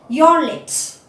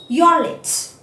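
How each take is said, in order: The two takes are said the same way.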